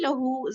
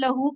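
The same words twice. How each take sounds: First: The final vowel is drawn out longer. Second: The final vowel is short and clipped. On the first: The speaker calls it right. "ज़रा-सा लंबा कर देते हैं" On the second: The speaker calls it wrong. "नहीं"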